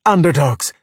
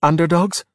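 First: Higher, emphatic team cheer; rousing shout, falling at the end. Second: Rising, higher-pitched question; tentative, inviting lift; questioning offer. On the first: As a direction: cheer it back with gusto. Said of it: "Luca and Alberto cheered". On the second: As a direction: float the team name. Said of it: "Giulia said". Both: A narrator's reading.

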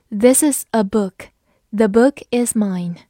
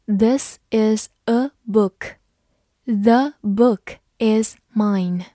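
First: Said in the usual way. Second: Slow, word-by-word model reading; careful teacher's demonstration at half speed. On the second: Shown as a demonstration. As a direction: read slowly, leaving a gap after every word. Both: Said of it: "我们慢读一遍".

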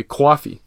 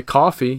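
First: Coffee said as kwoffee with a broad New York awk; demonstrating the New York coffee sound; New York accent. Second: Said in the usual way. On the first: Shown as a demonstration. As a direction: round out coffee like a New Yorker. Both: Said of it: "pronounced with an exaggerated awk".

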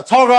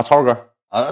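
First: Much higher call-out; mock called greeting. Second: Said in the usual way. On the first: Little brother greeting each gang brother, mock shout. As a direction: hail him in a high imitated shout. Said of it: "过去大喊一声".

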